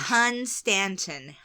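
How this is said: It is said in an imitated Norfolk character voice. "so let me get into that character"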